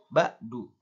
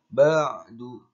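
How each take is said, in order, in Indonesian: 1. Huruf tengah adalah hamzah. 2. Huruf tengah adalah bunyi tenggorokan dalam. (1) "Tidak boleh diganti dengan hamzah. ... itu salah" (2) "Maka harus dibaca ain dengan jelas"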